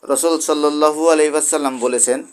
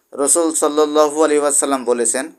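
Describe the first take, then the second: The two takes are said the same way.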